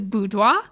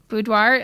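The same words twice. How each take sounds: First: It is said with a French pronunciation. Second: It is said as two plain English parts. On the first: This is the technically correct original way. "the technical pronunciation is boudoir" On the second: This is the common local way to say it. "it is very common for people just to say boudoir. Boudoir, I just like a bou and a doir"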